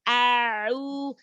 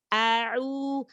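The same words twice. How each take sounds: The two takes are said the same way.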